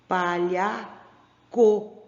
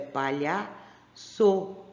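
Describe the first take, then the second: First: The consonant before the final vowel sounds like K. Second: The consonant before the final vowel sounds like S. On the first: The speaker calls it wrong. "se eu colocar esse C com O aqui, como é que vai ficar?" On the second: The speaker calls it right. "esse co também vai ficar com o som de so"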